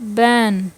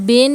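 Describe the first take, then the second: First: The vowel sounds like the 'a' in cat. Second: The vowel sounds like the 'e' in bed. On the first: The speaker calls it right. "बैन किसी चीज को मना करना होता है" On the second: The speaker calls it wrong. "यहाँ पर हम बेन नहीं पढ़ेंगे"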